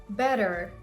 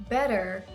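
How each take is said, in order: No difference in how they are said.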